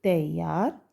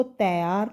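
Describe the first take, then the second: First: तैयार with a gliding a-i, "tai-yyaar"; correct reading. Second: तैयार with one open 'ai', "tai-aar"; wrong reading. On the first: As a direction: glide through तैयार as "ta-i-yaar". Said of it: "तो हम इसको कैसे पढ़ेंगे". (तैयार को "तइयार" जैसा बोलें) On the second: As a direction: flatten तैयार to "tɛ-yaar", no glide. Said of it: "तैयार नहीं पढ़ेंगे". (तैयार को सीधे 'ऐ' से "तै-यार" बोलें) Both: Shown as a demonstration.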